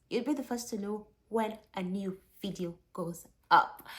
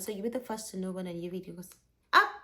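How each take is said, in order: First: It is said more slowly. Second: It is said too fast.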